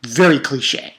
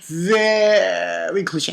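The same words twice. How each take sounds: First: Said in the usual way. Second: "Very" stretched right out, slowly; exaggerated drawl. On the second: Real, not acted. Reviewer hammering how cliche the villain is, exaggerated drawl. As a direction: drag out "Very" to hammer the point.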